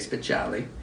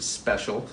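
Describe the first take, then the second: First: It has an Italian ending with an extra vowel. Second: It sounds like the English word special. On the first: This is how some other people say the name. "Some people would say speciale and all that, little Sicilian flair in there" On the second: This is how the family says the name. "we do pronounce it special"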